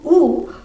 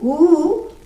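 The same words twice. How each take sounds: First: The vowel is held for one short beat. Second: The vowel is held for two beats. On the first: This is a short vowel. "that's one matra" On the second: This is a long vowel. "two matras"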